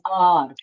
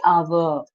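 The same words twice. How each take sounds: First: "our" as one syllable, like "are"; correct pronunciation of our. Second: "our" in two syllables, "a-ver"; wrong pronunciation of our. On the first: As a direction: model "our" as a single open "ar". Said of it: "so pronounce it as our". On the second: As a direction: drag "our" out with a v-like middle. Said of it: "Don't say our". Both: Shown as a demonstration.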